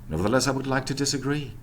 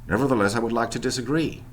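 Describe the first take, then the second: Both takes have the same delivery.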